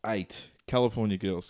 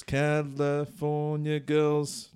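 First: Said in the usual way. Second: Put-on [name] stretched out very slowly, savoured; drawn-out title. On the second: Shown as a demonstration.

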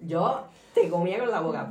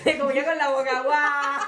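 First: Said in the usual way. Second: Loud, raised-pitch laughing shout; full-on yelling. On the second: Shown as a demonstration. Showing how they used to yell, loud laughing shout. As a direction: belt it out, half laughing. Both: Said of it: "antes era de gritar full".

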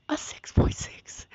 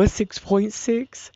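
First: Whispered in disbelief. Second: Said in the usual way. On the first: Real, not acted. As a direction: breathe it out, voiceless and stunned.

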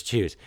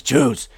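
First: Said in the usual way. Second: "Choose." said louder, hard and final; "Choose." louder and firmer than the earlier tries; forceful command. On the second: Retold or imitated. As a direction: slam down the word "Choose." as the last word. Third, final demand from Wisdom.

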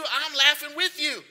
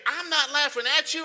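First: WITH punched in a raised voice; stress on WITH. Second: AT punched in a raised voice; stress on AT. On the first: Preacher quoting a familiar saying, stress on WITH. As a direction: hit the word "with" as the contrast. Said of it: "Well, here he's laughing at them". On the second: Preacher quoting a familiar saying, stress on AT. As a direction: hit the word "at" to set up the contrast. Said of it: "y'all know that saying where you say". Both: Shown as a demonstration.

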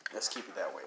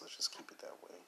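First: Said in the usual way. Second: A playful conspiratorial whisper, no voice at all. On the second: Acted. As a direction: breathe it like a secret to the listeners. Joking about keeping podcast clean.

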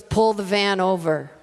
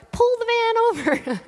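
First: Put-on slow, low, firm command from the old lady; quoted order. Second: Put-on much higher, piercing old-lady squawk; shrill old lady. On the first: Old lady calmly telling the driver to pull over, slow firm command. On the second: Old lady squawking at the driver to pull over, much higher. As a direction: screech the order like a tiny old lady. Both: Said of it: "And actually, it was more like".

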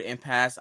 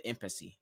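First: Said in the usual way. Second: Impasse said as IM-puh-see; mispronounced impasse. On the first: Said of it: "I pronounced it impasse". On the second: Shown as a demonstration. Host recalls his first try at the word, impasse misread as IM-puh-see. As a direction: say impasse with an extra "ee" syllable at the end. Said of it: "When I first heard the word impasse, I pronounced it".

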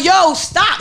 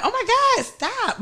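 First: Firm, flat warning; mean it, shut it down; real stop. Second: High, soft playful protest; a giggly stop that invites more; fake stop. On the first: Retold or imitated. Woman demoing her real stop to a guy, firm. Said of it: "That's my real stop". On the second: Woman imitating her fake stop to a guy's hug, playful. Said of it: "But you, I want him really stop".

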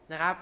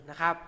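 No difference in how they are said.

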